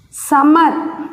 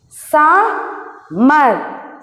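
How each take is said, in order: First: Said in the usual way. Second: "Summer" in two drawn-out beats with a pause between; split into syllables. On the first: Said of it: "this is one syllable and this is". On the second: Shown as a demonstration. Teacher showing first and second syllable, "Summer" split Sum-mer. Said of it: "this is first syllable".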